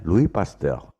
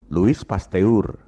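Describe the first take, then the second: First: "Louis Pasteur" said French-style, lwee pas-tuhr; French pronunciation. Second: "Louis Pasteur" read as spelled, lu-is pas-te-ur; Louis Pasteur as written. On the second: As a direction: slowly sound every letter of "Louis Pasteur", final s included. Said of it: "ucapan dan tulisannya memang beda". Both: Shown as a demonstration.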